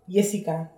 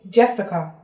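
First: The name is said a non-English way. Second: The name is said the English way. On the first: This is how the name is said outside England. "not Jessica" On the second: This is how the name is said in England. "when I'm back home in England, it's Jessica"

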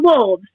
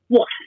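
First: The word ends with a v sound. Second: The word ends with an f sound. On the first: "Not wolves" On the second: "wolves is how he would say it. You know, FS on the end"

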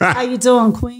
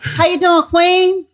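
First: It is said in a sexy, flirty way. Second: It is said in a plain, friendly way.

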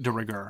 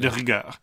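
First: It is said with an English-style pronunciation. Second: It is said with a French-style pronunciation. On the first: "I don't pronounce with a French accent" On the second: "I don't say de rigueur"

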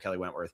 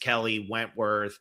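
First: The two names run together as one name. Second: The two names are split apart like separate people. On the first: It refers to one person. The speaker calls it right. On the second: It sounds like two different people. The speaker calls it wrong.

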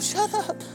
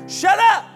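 First: It is said softly, without force. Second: It is said loudly and forcefully. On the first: The speaker calls it wrong. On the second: The speaker calls it right.

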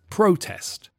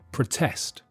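First: The stress is on the first syllable. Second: The stress is on the second syllable. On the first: It is a noun: a public meeting to complain. "in the noun, the stress is on the first syllable, so the vowel sound is strong, pro" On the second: It is a verb: to complain publicly. "in the verb, the first vowel sound is weak, pr"

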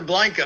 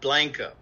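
First: Blanco is said the way outsiders say it. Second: Blanco is said the local Texas way. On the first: The speaker calls it wrong. "you're going to Blanco" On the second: The speaker calls it right. "it's called Blanco"

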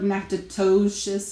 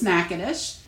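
First: The name is read out letter by letter as spelled. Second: The name is said with its local pronunciation. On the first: This is how outsiders guess it from the spelling. The speaker calls it wrong. "Or they look like Natchitoches or something like that" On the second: This is how the town's name is really said. The speaker calls it right. "but it's Natchitoches"

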